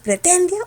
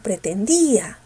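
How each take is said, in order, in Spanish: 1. La i es átona, unida a la a. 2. La i lleva el acento, separada de la a.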